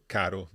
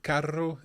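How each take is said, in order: First: Caro with one short tapped R; single R. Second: Carro with a long rolled R; double R. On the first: Presenter contrasting the meanings, caro with single R. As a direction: tap the R of caro once. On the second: Presenter contrasting the meanings, carro with double R. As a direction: draw out the trilled R in carro. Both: Shown as a demonstration. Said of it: "two words with two different meanings".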